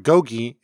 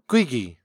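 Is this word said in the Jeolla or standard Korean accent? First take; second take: standard; Jeolla. First: It is said in standard Korean pronunciation. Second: It is said in the Jeolla dialect pronunciation. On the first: "The word meat, or gogi" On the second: "is often pronounced gwigi"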